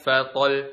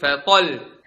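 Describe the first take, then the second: First: The final doubled sound gets no extra emphasis. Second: The voice is raised on the final doubled sound. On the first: The speaker calls it wrong. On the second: The speaker calls it right.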